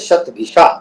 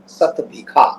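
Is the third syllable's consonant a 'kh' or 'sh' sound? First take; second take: sh; kh. First: The third syllable has a 'sh' sound. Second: The third syllable has a 'kh' sound. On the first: This is the original Sanskrit name. "जैसे शतभिषा" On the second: This is how village people say the name. "तो वहां के लोग क्या बोलते हैं? सतभिखा"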